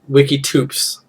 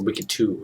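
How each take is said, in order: First: The name ends with a clear 'ps' sound. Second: The name ends in a vowel, 'ps' silent.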